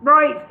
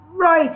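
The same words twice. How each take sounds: First: Louder, rougher boss bark; gravelly boss voice, better take. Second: Gravelly boss voice. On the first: Shown as a demonstration. Reading a bullying brewery boss, gruff and louder. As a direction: reader redoes the brewer boss properly. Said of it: "I can do that voice better, hang on". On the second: A narrator's reading. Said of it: "his voice gravelly to the point of boulders".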